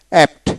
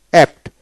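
The two takes are said the same way.

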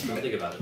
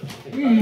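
First: Said in the usual way. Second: Shouting it higher and louder; panicked shout. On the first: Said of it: "repeated self-instruction". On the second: Real, not acted. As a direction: yell it to block out the taste. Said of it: "repeated, much louder and higher".

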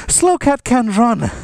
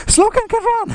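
First: Said in the usual way. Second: High squeaky voice. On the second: Pretend. Announcing a slow cat.

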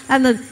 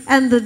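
Both takes have the same delivery.

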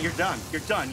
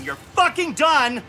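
First: Low, soft verdict; quiet resignation. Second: "fucking" punched, drawn-out and slow; stress on fucking. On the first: Gamer telling himself it is over, quietly resigned. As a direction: say it low, under your breath. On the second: Gamer telling himself it is over, punching "fucking". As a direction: lean hard and slowly on "fucking". Repeats the verdict with emphasis. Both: Real, not acted.

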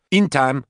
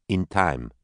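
First: High, loud angry echo. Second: Said in the usual way. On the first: Acted. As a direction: throw her words back at her. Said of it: "Katie said angrily". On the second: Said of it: "Nicole replied".

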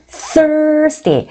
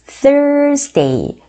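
First: Thursday, tongue bitten, air pushed out on th. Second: Thursday with th, tongue between teeth; th sound. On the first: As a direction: bite the tongue lightly and blow for Thursday. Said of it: "혓바닥을 살짝 깨무시고요. 바람을 촥 부세요". (혀를 물고 바람을 촥 불며 Thursday) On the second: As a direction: say Thursday with a clear th, blowing air over the tongue. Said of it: "요 티에이치 발음". (혀를 살짝 물고 바람 불며 Thursday) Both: Shown as a demonstration.

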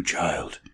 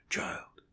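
First: Said in the usual way. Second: Put-on child whispered, voiceless and much softer. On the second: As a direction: breathe child as a hushed whisper. Whispered to dying girl.

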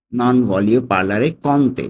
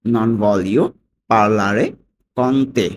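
First: "Non voglio parlare con te" slowly in one connected run; whole phrase together. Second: "Non voglio / parlare / con te" with clear pauses between chunks; broken into chunks. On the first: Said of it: "পুরোটা একসাথে কি দাঁড়ায়". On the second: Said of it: "ভেঙে ভেঙে যদি পড়ি". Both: Shown as a demonstration.

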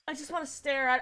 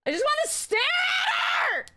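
First: Said in the usual way. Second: Very high squealed wail; overexcited scream. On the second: Real, not acted. Fan who just wants to stare at her, screaming. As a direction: squeal it out, stretching the end. Fan losing composure over friend.

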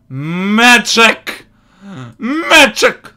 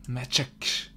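First: Said in the usual way. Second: Breathless whisper of the word. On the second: Real, not acted. Gamer whispers the word magic with a laugh.

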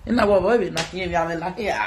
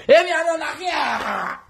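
First: Said in the usual way. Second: "E mi ame na kiya" shouted high and slow; slow high yelled "E mi ame na kiya". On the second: Shown as a demonstration. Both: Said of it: "repeated shouting".

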